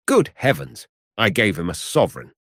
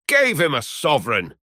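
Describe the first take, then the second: First: Mildly aghast, in narrated dialogue; dismayed exclamation. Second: Incredulous cry, pitched high without real shouting; mock yell. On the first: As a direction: let a touch of dismay into the line. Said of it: "the picture of dismay". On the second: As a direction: echo it back high in amused disbelief. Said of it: "shouted Trevor". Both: A narrator's reading.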